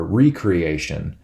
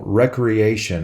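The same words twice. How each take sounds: First: "recreation" said as REE-cree-AY-shun; re-creation pronunciation. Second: Said in the usual way. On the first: Shown as a demonstration. Same word re-read as re-creation.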